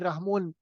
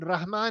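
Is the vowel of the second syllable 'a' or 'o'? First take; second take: o; a. First: The second syllable has an 'o' vowel. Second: The second syllable has an 'a' vowel. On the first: This is how the name is said locally. "रहमोन इसको इस तरह वहां प्रोनाउंस किया जाता है" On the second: This is the usual form of the name. "Basically रहमोन, रहमान है"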